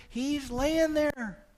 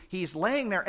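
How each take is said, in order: First: High, slow, drawn-out; drawn-out storytelling. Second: Said in the usual way. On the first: Shown as a demonstration. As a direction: paint the picture slowly. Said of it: "Wind howling all over the place".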